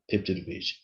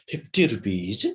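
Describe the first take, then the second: First: The voice falls at the end. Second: The voice rises at the end. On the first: It states the price. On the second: It asks in surprise about the price.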